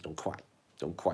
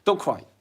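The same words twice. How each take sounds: First: Soft soothing hush, much softer and a touch lower. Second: Said in the usual way. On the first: Real, not acted. Comforting a crying viewer, soft and soothing. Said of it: "Mm-mm-mm-mm-mm".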